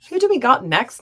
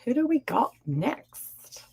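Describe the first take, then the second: First: Higher and louder, bright announcement; loud call-out. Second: Slow breathy whisper, teasing. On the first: Real, not acted. Host calling out to her live chat, energetic. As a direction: call it out to the whole room. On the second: Pretend. Host whispering to her live chat, playful. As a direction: lean in and whisper the question.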